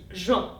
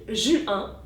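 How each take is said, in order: First: The vowels are joined into one syllable. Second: The vowels are split into two syllables. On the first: "en une seule fois, je fais l'inverse, qu'on appelle une synérèse" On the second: "je sépare les voyelles et fais donc une diérèse"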